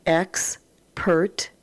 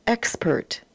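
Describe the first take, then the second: First: Expert split into Ex and pert, said slowly; syllable by syllable. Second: Said in the usual way. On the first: Shown as a demonstration. Teacher sounding out a word for the class, split slow. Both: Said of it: "read across and then put together".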